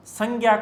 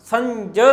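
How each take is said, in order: First: संज्ञा with a hard g, "sang-gya"; colloquial pronunciation. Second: संज with a j sound, "san-jya"; original pronunciation. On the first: Teacher rejects the common form as not a word, colloquial pronunciation. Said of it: "संज्ञा कोई शब्द नहीं होता". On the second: Teacher corrects students to the true word, original pronunciation. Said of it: "संज शब्द होता है". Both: Shown as a demonstration.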